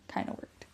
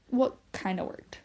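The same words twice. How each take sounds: First: Whispered correction; half-voice it as a sly aside. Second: Said in the usual way. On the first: Real, not acted. Mom quietly hedging her own claim, whispered.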